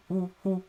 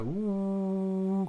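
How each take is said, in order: First: High choppy woo woo; imitating pulsing synth. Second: One long, slow, high held woo; imitating steady synth. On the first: Reviewer showing viewers the tremolo effect, pulsing high woos. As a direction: chop the tone into quick pulses like tremolo. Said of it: "tremolo giving that pulsing woo". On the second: Reviewer contrasting a plain synth with tremolo, steady held woo. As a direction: hold a single steady synth tone. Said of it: "more like a woo kind of sound". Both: Shown as a demonstration.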